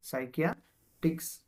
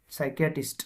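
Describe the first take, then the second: First: psychiatrist slowly, broken before the last syllable; slow breakdown. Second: Said in the usual way. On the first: Shown as a demonstration. Teacher breaking a hard word up for students, slowly. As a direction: draw out સાયકિયા, then add ટ્રિસ્ટ separately.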